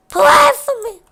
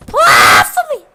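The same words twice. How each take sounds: First: Very high squeaky mock plea; dying plea. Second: Loud mock wail; dying plea shouted. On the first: Chica dying and begging for prayers, very high squeak. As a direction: squeak it like a cartoon character going down. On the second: Chica dying, loudly wailing for prayers. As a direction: belt the plea out as she goes. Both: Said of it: "She would just die like".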